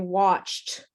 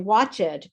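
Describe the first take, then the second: First: It is said with one syllable. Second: It is said with two syllables. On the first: The speaker calls it right. "We say watched, and uh, there's no E" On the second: The speaker calls it wrong. "they pronounce every letter"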